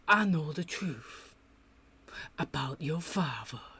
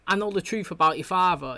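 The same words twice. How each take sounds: First: The sentence is spoken very slowly and drawn out. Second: The sentence is spoken at a quick, normal pace. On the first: The speaker calls it wrong. "she speaks too slow for my liking" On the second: The speaker calls it right. "instead of saying"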